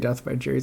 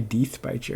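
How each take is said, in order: First: The first vowel is short, as in 'bed'. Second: The first vowel is long, as in 'see'. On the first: The speaker calls it wrong. "It just sounds cool when you say Death by Cherries" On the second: The speaker calls it right. "It doesn't sound as cool when you say Deeth by Cherries"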